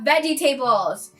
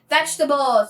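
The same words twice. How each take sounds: First: It is said in a Cameroonian accent. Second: It is said in an American accent.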